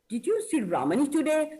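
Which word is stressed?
Ramani. The word Ramani is stressed. The question is about this person, not anyone else. "So I'm stressing on Ramani"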